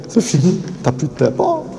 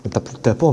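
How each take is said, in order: First: A light Belgian accent, pitched higher; lightly put-on Belgian accent, higher. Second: Said in the usual way. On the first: Shown as a demonstration. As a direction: lean into a thick Belgian accent. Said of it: "mon petit accent belge". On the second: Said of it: "Avec mon gros accent".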